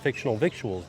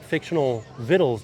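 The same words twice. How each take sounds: First: The last word rhymes with 'fictional'. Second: The last word sounds like 'vittles'. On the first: "the way that fictional victuals does" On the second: "doesn't roll off the tongue"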